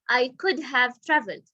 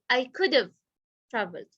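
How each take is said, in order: First: Could have is said fully, with a clear have. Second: Could have is reduced and run together. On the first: "he didn't say" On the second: "He said"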